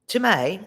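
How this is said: It is said with a put-on accent.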